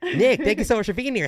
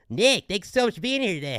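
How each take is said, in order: First: It is said in her normal voice. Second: It is said in a put-on cartoon voice.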